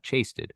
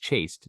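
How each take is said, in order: First: The word ends with an extra 'ted' syllable. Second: The word ends in a plain 'st' sound. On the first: The speaker calls it wrong. "it's not chasted" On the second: The speaker calls it right. "No, it's chased"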